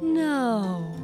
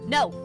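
First: It is light, slow and drifting. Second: It is strong, sudden and forceful.

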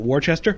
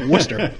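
First: The name is read out as spelled. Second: The name is said in a shortened form. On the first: The speaker calls it wrong. "They're like, what is that" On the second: The speaker calls it right.

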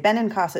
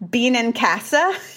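First: The surname is said in a plain pronunciation. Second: The surname is said in a Canadian pronunciation.

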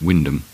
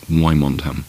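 First: The name is said like 'Wyndham'. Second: The name is said the way it is spelled. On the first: The speaker calls it right. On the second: The speaker calls it wrong.

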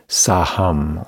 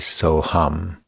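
First: The first vowel sounds like 'ah'. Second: The first vowel sounds like 'oh'. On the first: "The Kriya is called Saham" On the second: "or alternatively Soham"

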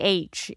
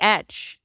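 First: The letter is said the American way. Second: The letter is said the Indian way.

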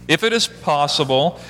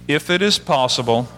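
The two takes are said the same way.

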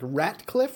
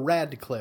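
First: The middle consonant is pronounced as a T. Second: The middle consonant is pronounced as a D. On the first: "a T or a D? Like Ratcliffe" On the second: "or Radcliffe?"

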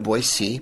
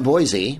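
First: The name is said the way locals say it. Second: The name is said the non-local way. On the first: The speaker calls it right. "Locals call it Boise" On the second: The speaker calls it wrong. "not Boise"

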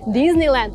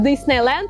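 First: It is said the American way, with a z sound. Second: It is said the Russian way, with an s sound. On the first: Americans would understand it at once. The speaker calls it right. "тогда все сразу станет на свои места" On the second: Americans would not understand it. The speaker calls it wrong. "вас никто не поймет"

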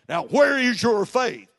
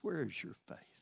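First: It is said in a stern, scolding tone. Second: It is said in a tender, loving tone.

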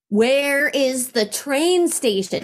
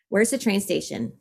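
First: It is said slowly and loudly. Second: It is said at a normal pace and volume.

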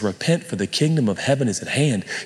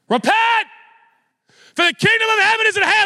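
First: It is said in a plain, calm way. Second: It is said like a fired-up football coach.

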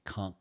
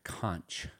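First: The word is said in the local pronunciation. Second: The word is said in the outsider pronunciation. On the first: The speaker is from the area. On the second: The speaker is not from the area.

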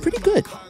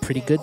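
First: It sounds surprised and impressed. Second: It sounds doubtful and questioning. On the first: The person did better than expected. "when you're underestimated and people like realize like" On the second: The result leaves room for doubt. "there's a little room for doubt"

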